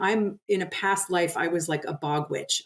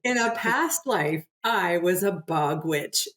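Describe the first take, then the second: First: It is said at a normal conversational speed. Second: It is said slowly and deliberately.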